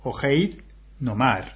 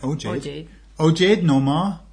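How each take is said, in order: First: The name is said with Spanish pronunciation. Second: The name is said with English pronunciation. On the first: "That would be Spanishify" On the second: "That's English"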